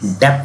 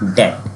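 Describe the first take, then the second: First: The word ends with a 'pth' sound. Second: The word ends with a plain 't' sound. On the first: The speaker calls it wrong. "हमारा ये डेप्थ नहीं होता है" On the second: The speaker calls it right. "ये होता है डेट"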